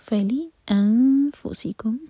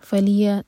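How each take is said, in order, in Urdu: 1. anfusikum سے پہلے واضح حمزہ کٹ آف ہوتا ہے۔ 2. الفاظ حمزہ کے بغیر آپس میں ملے ہوئے ہیں۔ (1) "حمزہ ہے اس کا کٹ آف ساؤنڈ کلیئر آنا چاہیے" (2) "فلیا نہیں ہوگا"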